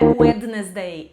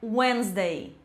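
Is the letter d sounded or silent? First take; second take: sounded; silent. First: The d in the middle is pronounced. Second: The d in the middle is silent. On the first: The speaker calls it wrong. "Não é Wednesday" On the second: The speaker calls it right. "é Wednesday. Essa é a pronúncia correta"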